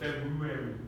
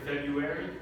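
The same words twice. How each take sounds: First: The r after the b is clearly pronounced. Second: The r after the b is left out. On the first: It is the careful, perfect English way. The speaker calls it right. "you would have to pronounce that uh, very uh, weird R uh, after the B" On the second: It is the easy everyday way. The speaker calls it wrong. "most of the time, you'll just hear February"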